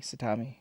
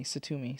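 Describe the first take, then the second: First: Satami with "ah" in the middle: sa-TAH-mee. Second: Satumi with a stressed "oo": sa-TOO-mee. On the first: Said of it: "I can't say it". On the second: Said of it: "I think it's Satumi". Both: Shown as a demonstration.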